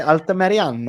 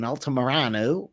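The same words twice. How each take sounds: First: Altamirano with a tapped R, Spanish-style; Spanish pronunciation. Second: Altamirano with a flat American R; American pronunciation. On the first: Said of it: "I wanna say Altamirano". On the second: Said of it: "I'll say it like an American". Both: Shown as a demonstration.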